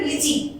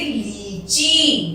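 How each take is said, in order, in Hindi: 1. पहला स्वर छोटा और जल्दी बोला जाता है। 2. पहला स्वर लंबा और खिंचा हुआ है। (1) "अगर हम छोटी मात्रा लगाते इसमें तो हम बोलते हैं" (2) "पर हमने बड़ी की मात्रा लगाई है तो हम बोलेंगे"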